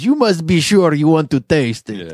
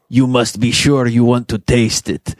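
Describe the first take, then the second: First: It is said in a put-on foreign accent. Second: It is said in the speaker's ordinary voice.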